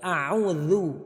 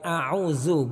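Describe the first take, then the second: First: The dh sound is clear without hissing. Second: The dh sound is hissed like a z. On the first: The speaker calls it right. "Tapi a'udzu" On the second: The speaker calls it wrong. "jangan sampai kita baca desis. Jadi bukan a'udzu"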